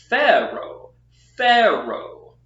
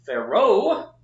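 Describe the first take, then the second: First: PHA-raoh, first syllable high and loud, then falling; corrected demo stressing PHA in "Pharaoh". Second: Pha-RAOH, second syllable high and loud; wrong-way demo, slow "Pharaoh" stressed on RAOH; stress on last syllable. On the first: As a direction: hit "Pha" hard in "Pharaoh" and drop the rest. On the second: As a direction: swing the weight onto the end of "Pharaoh". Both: Shown as a demonstration. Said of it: "not Pharaoh".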